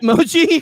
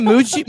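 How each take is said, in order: First: "Mochi" with a long o in the first syllable; "Mochi" said MOH-chee, pitched high; Mochi pronunciation. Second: "Muchi" with an oo in the first syllable; "Muchi" said MOO-chee, pitched high; Muchi pronunciation. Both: Shown as a demonstration. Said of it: "are you saying Muchi, Mochi".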